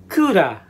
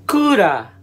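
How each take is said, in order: Both takes have the same delivery.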